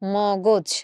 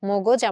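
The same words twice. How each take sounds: First: The second syllable has an o vowel. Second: The second syllable has a non-o vowel. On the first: The speaker calls it right. "পরের গটাকে ও- ওকার করে দিয়ে আমরা এই উচ্চারণটা করছি" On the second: The speaker calls it wrong. "মগজ আমরা বলছি না"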